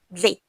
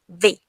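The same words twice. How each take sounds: Both takes have the same delivery.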